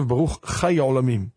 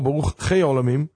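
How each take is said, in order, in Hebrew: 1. המילה chai משתמשת בתנועה הספרדית. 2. המילה chai משתמשת בתנועה האשכנזית. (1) "בני ספרד נוהגים לומר" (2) "בני אשכנז נוהגים לומר"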